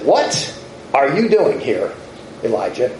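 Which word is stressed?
doing. The stress is on "doing".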